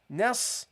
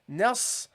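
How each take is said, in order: No difference in how they are said.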